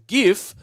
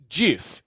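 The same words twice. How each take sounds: First: It begins with a hard G sound. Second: It begins with a J sound. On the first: "Is it a hard G sound" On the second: "or a J sound?"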